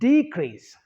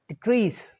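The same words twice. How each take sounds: First: The stress is on the first syllable. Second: The stress is on the second syllable. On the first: It is used as a noun. "The first syllable is stressed more than the second syllable" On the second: It is used as a verb. "second syllable is stress"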